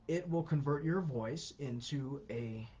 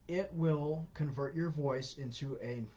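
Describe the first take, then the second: Both takes have the same delivery.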